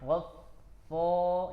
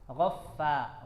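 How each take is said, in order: First: The fa sound is thick and dark. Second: The fa sound is thin and light. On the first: The speaker calls it wrong. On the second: The speaker calls it right.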